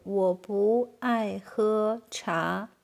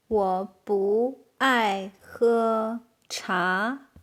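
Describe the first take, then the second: First: Said in the usual way. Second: Very slow, separated syllables; word by word. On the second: Shown as a demonstration. Teacher translating "I don't like to drink tea", very slowly. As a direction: stretch every word out for learners. Very slow model, later repeated.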